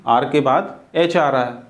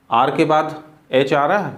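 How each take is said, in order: Both takes have the same delivery.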